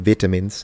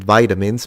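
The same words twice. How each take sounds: First: It is said with a British pronunciation. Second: It is said with a non-British pronunciation. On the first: "I think that's how they say it in the U K" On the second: "my wife pronounces it vitamins"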